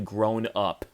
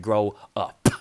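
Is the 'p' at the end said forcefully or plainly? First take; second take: plainly; forcefully. First: The final p is said plainly. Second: The final p is said with heavy force.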